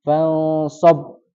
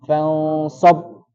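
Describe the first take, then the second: First: Fansab with the ba held and pressed; syiddah on ba. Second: Fansab with the ba pressed shut; syiddah on ba again. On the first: Teacher showing where syiddah sits. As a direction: stress the doubled b in Fansab. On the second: Teacher repeating the syiddah for the student. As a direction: close hard on the b of Fansab. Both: Shown as a demonstration. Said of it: "di mana letak syiddahnya".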